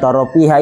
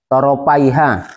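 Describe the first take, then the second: First: The middle has a plain short i vowel. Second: The middle has an ai diphthong. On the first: The speaker calls it wrong. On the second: The speaker calls it right.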